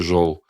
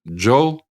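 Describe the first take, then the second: First: The word begins with a 'zh' sound. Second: The word begins with a 'j' sound. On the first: This is how the Kazakhs say it. "а для казахов как бы чистое «ж»" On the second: This is how the Nogais say it. "для ногаев, именно восточных ногаев, характерен фонема «дж»"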